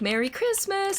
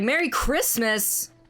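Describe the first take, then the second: First: The greeting is said in a calm, friendly tone. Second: The greeting is said in a forceful, aggressive tone.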